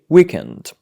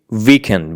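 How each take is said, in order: First: The word begins with a W sound. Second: The word begins with a V sound. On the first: The speaker calls it right. "we say weekend" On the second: The speaker calls it wrong. "We don't say weekend"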